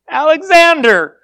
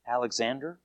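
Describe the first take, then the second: First: Louder, higher answer called out; raised-voice reply, pushed out loud; stronger, raised voice. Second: Timid, low answer, barely voiced; hushed, hesitant mumble of a reply; quiet, under his voice. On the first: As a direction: speak up firmly like a soldier reporting. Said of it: "raised his voice a little stronger". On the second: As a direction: say it small and soft, almost to yourself. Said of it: "quietly, like under his voice". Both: A narrator's reading.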